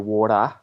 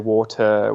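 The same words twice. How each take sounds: First: The T is said as a quick flap. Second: The T is said as a crisp, clear T. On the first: "we say water. So we use things like the T flap there" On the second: "we don't say water"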